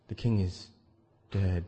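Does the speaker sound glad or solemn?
solemn. It is said in a solemn, mournful tone. The death is being mourned. "how am I going to say it?"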